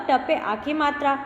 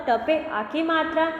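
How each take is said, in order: No difference in how they are said.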